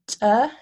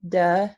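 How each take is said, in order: First: The stop is released with a puff of air. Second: The stop is released with the voice buzzing. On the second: "and then voiced"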